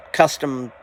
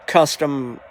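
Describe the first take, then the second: No difference in how they are said.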